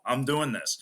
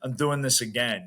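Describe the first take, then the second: First: Firm, stubborn I'm doing this; determined. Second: Stubborn repeat with doing stressed; determined. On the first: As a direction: insist through frustration. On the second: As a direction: dig in and insist on another try. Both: Retold or imitated. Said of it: "more of an anger and a, like, frustration".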